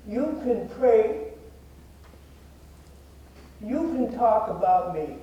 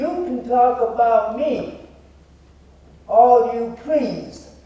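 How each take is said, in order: First: Real emotion interrupting the words; getting emotional. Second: Loud, high, slow and pointed; emphatic finger-pointing oratory, word by word; accusatory challenge. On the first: Real, not acted. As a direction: recite it while holding back emotion. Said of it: "I always get emotional when I say this". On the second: Shown as a demonstration. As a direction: throw it at the crowd as a challenge. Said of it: "accusatory, and I'm gonna point my finger".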